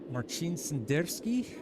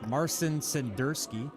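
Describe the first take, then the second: First: The name is said with a non-American pronunciation. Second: The name is said with an American pronunciation. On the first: "I hope I'm saying that right" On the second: "pronouncing it the American way"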